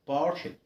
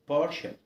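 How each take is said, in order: The two takes are said the same way.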